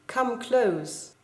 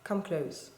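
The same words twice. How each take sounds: First: Firm, open reading of a poem line; said out clearly, falling at the end; one reading of the line. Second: A lower, softer take of the line; softer second reading. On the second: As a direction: come close, low and hushed. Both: Shown as a demonstration. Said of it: "If you read it very carefully, it does make a difference".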